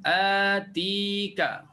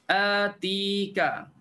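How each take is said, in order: The two takes are said the same way.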